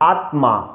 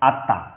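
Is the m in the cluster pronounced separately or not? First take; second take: separately; not separately. First: Each letter, including the m, is pronounced separately. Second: The m sound is not pronounced separately. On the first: "সংস্কৃত উচ্চারণ করতে যাই তাহলে আত্মা" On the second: "অবশ্যই আত্মাটা হচ্ছে একটি বাংলা উচ্চারণ"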